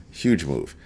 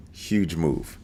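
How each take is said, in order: First: Huge stressed again, a little fuller; second Huge move, a bit stronger; emphatic repeat. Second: Quiet weighty Huge move; emphatic repeat. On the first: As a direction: hit Huge firmly. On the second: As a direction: stress Huge, drop the level. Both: Shown as a demonstration.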